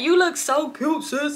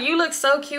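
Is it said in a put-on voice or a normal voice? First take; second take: put-on voice; normal voice. First: It is said in an imitation of her voice. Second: It is said in the speaker's own voice.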